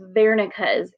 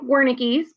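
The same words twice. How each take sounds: First: The word begins with a V sound. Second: The word begins with a W sound. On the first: The speaker calls it right. "the correct pronunciation is Wernicke's area. W makes a V sound" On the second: The speaker calls it wrong. "it looks like Wernicke's"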